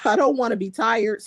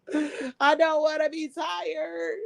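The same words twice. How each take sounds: First: Said in the usual way. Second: High, slow, whiny fake cry; mock whine. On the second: Streamer whining to chat about work tomorrow, mock crying. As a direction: whimper it like a tired kid. Repeats line, then whines it.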